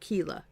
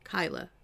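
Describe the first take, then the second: First: The first vowel sounds like 'ee'. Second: The first vowel sounds like 'eye'. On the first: The speaker calls it wrong. "not Keela" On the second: The speaker calls it right. "It's Kyla"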